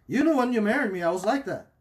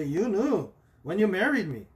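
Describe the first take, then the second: First: Higher and louder, mock indignant spouse; mock indignant excuse. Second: Lightly voiced defensive spouse, a bit higher; mock excuse. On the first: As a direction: insist on it like a defensive spouse. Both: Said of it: "that's how people see it".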